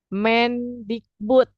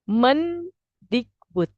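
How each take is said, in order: First: The first vowel differs from the e in menteri. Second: The first vowel matches the e in menteri. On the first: The speaker calls it wrong. "lazim kita ucapkan" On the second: The speaker calls it right.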